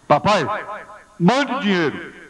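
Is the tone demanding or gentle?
demanding. It is said in a harsh, demanding tone. The son is being insolent. The speaker calls it wrong. "Olha que telegrama mais atrevido"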